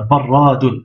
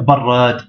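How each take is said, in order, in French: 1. Le mot se termine par une syllabe -un ajoutée. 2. Le mot s'arrête sur sa consonne finale. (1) "Donc ça fait barradun" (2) "on va bloquer la dernière consonne"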